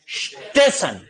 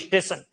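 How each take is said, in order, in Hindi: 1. शब्द सीधे 'st' के गुच्छे से शुरू होता है। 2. 'st' से पहले एक अतिरिक्त 'i' स्वर जोड़ा जाता है। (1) "ये वास्तव में शब्द क्या है? स्टेशन।" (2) "ई बोलेंगे।"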